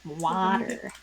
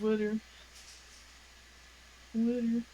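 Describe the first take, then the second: First: "Water" with an open "wah" and clean t; "Water" the way she says it, rising a little; flat water. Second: Jersey "Water" as "wooder", a d for the t; New Jersey "Water", round vowel, tapped middle; the Jersey way of saying "Water"; Jersey accent. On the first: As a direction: say "Water" with an open vowel and a crisp t. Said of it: "that makes me sound like Wally". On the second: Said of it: "biggest Jersey accent thing is when I say water". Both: Shown as a demonstration.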